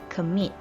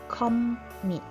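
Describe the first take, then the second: First: The stress is on the second syllable. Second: The stress is on the first syllable. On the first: The speaker calls it right. "the stress is given on the second syllable" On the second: The speaker calls it wrong. "not commit"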